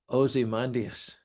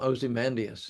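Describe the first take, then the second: First: The word is said slowly, broken into parts. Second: The word is said quickly, run together. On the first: "he repeated again really slow. He broke it down for me" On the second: "he said it really quickly"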